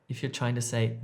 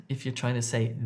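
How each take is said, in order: The two takes are said the same way.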